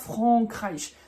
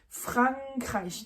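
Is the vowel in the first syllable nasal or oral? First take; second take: nasal; oral. First: The first vowel is nasal, like French AN. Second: The first vowel is oral, with the N sounded. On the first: The speaker calls it wrong. "c'est pas Frankreich" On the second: The speaker calls it right. "on prononce le A et le N"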